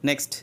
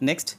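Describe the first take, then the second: No difference in how they are said.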